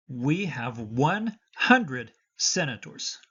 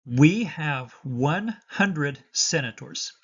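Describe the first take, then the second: No difference in how they are said.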